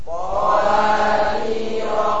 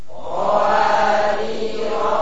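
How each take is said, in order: No difference in how they are said.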